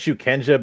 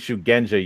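First: The middle consonant is a hard k sound. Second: The middle consonant is a g sound. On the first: The speaker calls it wrong. "they pronounce it as it's written as shukenja" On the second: The speaker calls it right. "but it's supposed to be shugenja"

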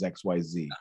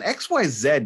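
First: The final letter is pronounced zee. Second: The final letter is pronounced zed. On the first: The speaker calls it right. "Z is a much cooler sounding word" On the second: The speaker calls it wrong. "doesn't sound as good as"

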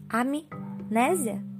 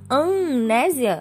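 First: The M is sounded separately with closed lips. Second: The M merges into one nasal vowel sound. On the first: The speaker calls it right. "Você pronunciou o som do A e pronunciou o som do M" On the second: The speaker calls it wrong. "Se você não fizer isso, você não consegue. E se você falar amnésia, não é a mesma palavra"

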